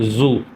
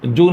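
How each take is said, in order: First: The word begins with a z sound. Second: The word begins with a j sound. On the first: The speaker calls it right. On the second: The speaker calls it wrong. "जू नहीं है"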